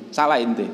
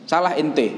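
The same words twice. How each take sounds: First: Said in the usual way. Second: Lightly imitating a blunt Betawi teacher, pitched higher; a mild mock rebuke from the old teacher, raised pitch; Betawi teacher scolding. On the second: Betawi teacher correcting his student's reading, mild mock scolding. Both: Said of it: "Orang Betawi gitu kan".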